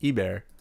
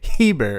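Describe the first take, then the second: First: The word begins with a vowel, no H. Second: The word begins with an audible H sound. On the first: The speaker calls it right. "And it's French, so you don't say Heber, it's Eber" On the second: The speaker calls it wrong. "you don't say Heber"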